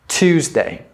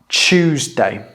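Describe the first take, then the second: First: It is said with an American 't' sound. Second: It is said with a British 'ch' sound. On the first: "That would be the American pronunciation" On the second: "the British pronunciation is Tuesday with a ch"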